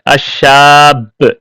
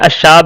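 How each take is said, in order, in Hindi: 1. यह व्यंजन दोहरा है और ज़्यादा देर तक रोका जाता है। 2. यह व्यंजन एकल बोला जाता है, लंबा नहीं किया जाता। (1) "तशदीद है" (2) "मैंने अशाब नहीं कहा"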